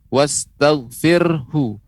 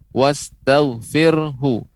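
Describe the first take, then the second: No difference in how they are said.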